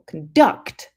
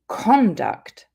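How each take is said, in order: First: The stress is on the second syllable. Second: The stress is on the first syllable. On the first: It is a verb meaning to direct. "if we put the stress on the second syllable" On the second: It is a noun meaning behavior. "when we stress the first syllable"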